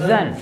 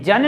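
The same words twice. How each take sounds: First: "जन" with a buzzing z, as zan; correct pronunciation. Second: "जन" with a hard j as in jam; wrong pronunciation. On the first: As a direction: say "जन" starting with z, not j. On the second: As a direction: say "जन" starting with a j stop. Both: Shown as a demonstration. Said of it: "जन नहीं पढ़ना है".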